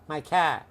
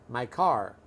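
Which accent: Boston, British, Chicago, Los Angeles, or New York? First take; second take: Boston; Los Angeles. First: It is said in a Boston accent. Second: It is said in a Los Angeles accent. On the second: "So in Los Angeles, we say car"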